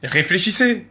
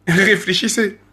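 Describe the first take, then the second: First: Said in the usual way. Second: Drawn out with a laugh; slow amused repeat. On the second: Real, not acted. Rapper taunting his critics, slowly laughing as he repeats. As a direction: say it again slowly, chuckling at them.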